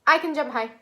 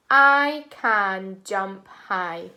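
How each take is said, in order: First: Quick. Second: Slow, word by word; slow counted words. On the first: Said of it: "Let's say it really quickly". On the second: Teacher counts words with class, slow and deliberate. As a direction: space out each word for counting. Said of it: "Let's count and see how many words". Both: Shown as a demonstration.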